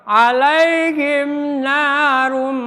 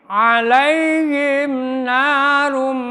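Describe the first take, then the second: Both takes have the same delivery.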